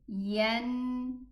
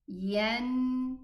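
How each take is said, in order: First: The nasal n sound is held until complete. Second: The nasal n sound is held until complete.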